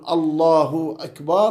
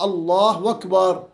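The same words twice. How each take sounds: First: Akbar begins with a clear glottal stop. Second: Akbar begins with a w sound instead. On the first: The speaker calls it right. "بدل ما أن يقول" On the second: The speaker calls it wrong. "قال ... فهذه قلبت واو"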